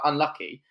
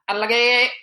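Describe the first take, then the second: First: It is said in a plain accent. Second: It is said in a foreign accent. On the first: "instead of saying, like" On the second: "he goes, ... he's obviously got his accent"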